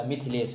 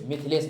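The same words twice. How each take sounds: First: मिथिलेश said "Mithilesh", clear short i on थ, softer and lower; correct pronunciation. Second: मिथिलेश said "Mithalesh", a in place of middle i; wrong pronunciation. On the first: Teacher correcting the name, मिथिलेश as "Mithilesh". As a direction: give मिथिलेश its middle i. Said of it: "होता है". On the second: Teacher showing the misspelling, मिथिलेश as "Mithalesh". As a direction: flatten the middle vowel of मिथिलेश to a. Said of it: "नहीं होता". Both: Shown as a demonstration.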